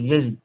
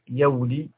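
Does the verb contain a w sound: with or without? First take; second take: without; with. First: No w sound follows the first y. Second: A w sound follows the first syllable's y. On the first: The speaker calls it right. "قل يلي" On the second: The speaker calls it wrong. "لا تقول في مضارعها يولي"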